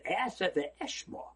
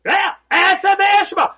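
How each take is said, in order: First: Aseh v'eshma said softly and slowly; soft, drawn-out Aseh v'eshma; quiet singular version. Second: Aseh v'eshma called out loud, high and slow; hearty, drawn-out Aseh v'eshma; loud affirming version. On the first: Shown as a demonstration. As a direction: lay out Aseh v'eshma gently, word by word. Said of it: "everybody should have said". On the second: Retold or imitated. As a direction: belt out Aseh v'eshma with conviction. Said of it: "And he said".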